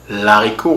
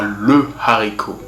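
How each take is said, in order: First: The article is elided into the noun. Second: The article is said in full, unelided. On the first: The speaker calls it wrong. "on n'aura pas l'haricot" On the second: The speaker calls it right. "on aura le haricot"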